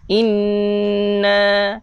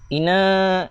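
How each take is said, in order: First: The n sound is stressed and held long. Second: The n sound is short and not held. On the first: The speaker calls it right. "Kita tekankan pada sabdu itu dua harakat" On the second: The speaker calls it wrong. "ramai orang baca macam ni. ... Salah lah tuan-tuan"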